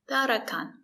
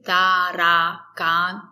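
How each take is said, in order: First: The first two vowels are short, relaxed, closed sounds. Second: The first two vowels are full, open a sounds. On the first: The speaker calls it right. "It's very closed. It's relaxed" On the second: The speaker calls it wrong. "We don't say tarakan"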